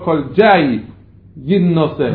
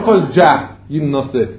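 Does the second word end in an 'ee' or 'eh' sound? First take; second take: ee; eh. First: The second word ends with an 'ee' sound. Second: The second word ends with an 'eh' sound. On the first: The speaker calls it right. "נקרוא כל ג'י יד נושא" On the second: The speaker calls it wrong. "לא כל ג'ה יד נושא"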